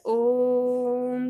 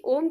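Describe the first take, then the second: First: ओम का ओ बहुत लंबा खींचकर, मंत्र जैसा; ओम को दो मात्राओं से अधिक देर तक गाते हुए; प्लुत ओम. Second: ओम सामान्य नाम की तरह, ओ पर दो मात्राएँ; बच्चे को बुलाते हुए ओम, ओ हल्का लंबा; दीर्घ ओम. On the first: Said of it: "हम उसे ओम करके उच्चार करते हैं". (वास्तविक ओम, खिंचा हुआ ओ) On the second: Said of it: "दीर्घ स्वर में ओ का उच्चारण हो रहा है". (दीर्घ ओ वाला ओम) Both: Shown as a demonstration.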